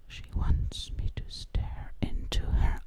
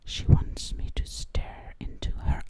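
Both takes have the same delivery.

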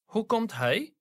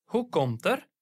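First: Hij said in full, stressed; full hij ending the question. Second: Er said weak and short; light er at the end; unstressed er. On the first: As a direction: give hij weight. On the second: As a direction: let er slip away. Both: Shown as a demonstration. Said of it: "when it doesn't carry stress, we use er".

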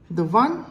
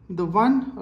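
The two takes are said the same way.

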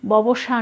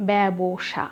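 First: ববসা said with a plain o, "bobsa"; wrong pronunciation. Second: ব্যবসা with an open e start, "bæbsha"; correct pronunciation. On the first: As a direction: model the common mistake ববসা. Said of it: "অনেকে বলেন এটি". (ভুল উচ্চারণ ববসা) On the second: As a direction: give the right form ব্যবসা clearly. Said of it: "সঠিক উচ্চারণ". (সঠিক উচ্চারণ ব্যবসা) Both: Shown as a demonstration.

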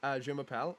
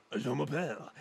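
First: Said in the usual way. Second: Put-on French voice; funny French accent. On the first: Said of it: "do you go". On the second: Shown as a demonstration. Friend arguing for funny voices, hammed French accent. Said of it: "couldn't do the funny voice".

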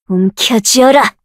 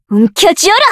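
First: Slow, falling order; slow measured command. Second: Pitched up, rising end; higher forceful command. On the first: Summoner commanding a creature slowly. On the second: Summoner commanding a creature, higher and forceful. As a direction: fire the order off. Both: Acted.

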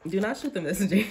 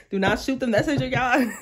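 First: Said in the usual way. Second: Giggling defence of the bearer of news; laughing plea. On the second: Real, not acted. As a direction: do not shoot the messenger through a laugh. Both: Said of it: "Again, don't attack me".

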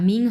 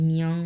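First: "মিং" with a plain short i; wrong pronunciation demo. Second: "মিয়ং" as mi-ong, pitched lower; correct pronunciation. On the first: Teacher warning students off the error, "মিং" with no o glide. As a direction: say "মিং" as ming, without an o glide. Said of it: "মিং হবে না কিন্তু". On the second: Teacher correcting students' ming, lower "মিয়ং" with an o glide. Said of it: "মিয়ং এরকম হবে". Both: Shown as a demonstration.

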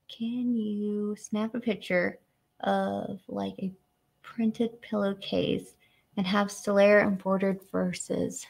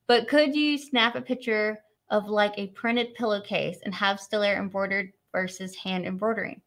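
First: Slow, word by word, puzzling it out; rereading a viewer's question slowly to parse it; slow careful reread. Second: Said in the usual way. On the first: Real, not acted. Rereading a confusing viewer question, slow and careful. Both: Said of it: "Trying to, like, break down in my head".

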